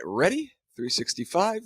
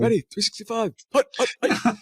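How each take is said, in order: First: Said in the usual way. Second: High, loud mock quarterback snap count; football call-out. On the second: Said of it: "sounds like a, like a football, uh, call out".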